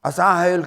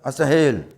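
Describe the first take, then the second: First: The second syllable has a long vowel. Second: The second syllable has a short vowel. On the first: The speaker calls it wrong. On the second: The speaker calls it right.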